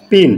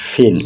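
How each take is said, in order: First: Said in the usual way. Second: ফিন with a breathy puff on the first sound; aspirated p in pin. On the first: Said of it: "এটা পিন বলা যাবে না". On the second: Shown as a demonstration. Teacher correcting students' pin to an aspirated ফিন. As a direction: aspirate the p of ফিন, not a flat পিন. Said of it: "এটা হচ্ছে ফিন".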